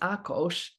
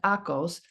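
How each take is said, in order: First: The s sounds unlike an English s. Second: The s sounds like an English s. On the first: The speaker calls it right. "but it's Akos Ekes" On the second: The speaker calls it wrong. "it looks like Akos"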